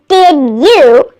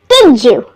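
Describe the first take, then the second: First: The d of did stays a plain d. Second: The d of did becomes a j sound.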